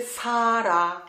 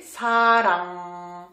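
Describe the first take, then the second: First: SARA drawn out, ending on an open A. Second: SARANG drawn out into a humming NG; nasal final consonant. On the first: Teacher showing the misspelt word, open ending. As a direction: say SARA slowly with no final nasal. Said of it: "si j'écris comme ça". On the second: Teacher correcting the misspelt word, nasal ending. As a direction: hold the closing NG of SARANG. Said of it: "Mais c'était sarang". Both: Shown as a demonstration.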